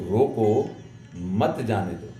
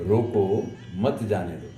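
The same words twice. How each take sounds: Both takes have the same delivery.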